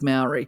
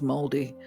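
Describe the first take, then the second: First: It is said with an everyday Australian pronunciation. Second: It is said with the native Māori pronunciation. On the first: The speaker calls it wrong. "they will actually cringe when I say the word Maori" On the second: The speaker calls it right. "I believe the pronunciation is Māori"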